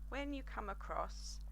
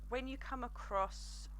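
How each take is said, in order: No difference in how they are said.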